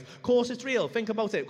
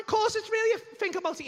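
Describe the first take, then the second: First: Said in the usual way. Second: High, loud insistence; indignant insistence. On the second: Retold or imitated. Comedian argues with doubting mate, high heated insistence.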